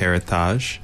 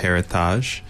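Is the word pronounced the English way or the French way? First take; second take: French; French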